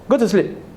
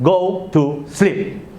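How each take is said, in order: First: It is said in a gentle, pleasant tone. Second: It is said slower, in a stern tone. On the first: The parent is still patient. "The intonation is still good" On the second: The parent is losing patience. "But a bit slower and stern"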